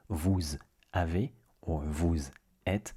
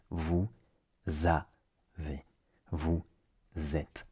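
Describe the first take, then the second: First: Vous, gap, avez; vous, gap, êtes; unlinked words. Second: Vous avez as vou, za, vé; vous êtes as vou, zêtes; Z carried over. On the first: Keep the Z on vous and pause before avez and êtes. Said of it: "is not". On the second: Slowly start avez and êtes with the Z of vous. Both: Shown as a demonstration.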